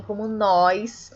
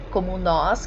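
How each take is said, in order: First: NÓS said as "nóis", with an i-glide before the s; informal nós. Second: Said in the usual way. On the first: Shown as a demonstration. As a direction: stretch NÓS into a colloquial "nóis". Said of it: "que seria informal". ("nós" pronunciado "nóis", informal e alongado) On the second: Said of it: "que é mais formal".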